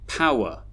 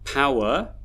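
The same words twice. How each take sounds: First: The second syllable is reduced to a schwa. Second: The second syllable has a full, spelled-out vowel. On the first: The speaker calls it right. "The unstressed syllables actually have schwa sounds in them" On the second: The speaker calls it wrong. "we would not pronounce them in the way they are spelled"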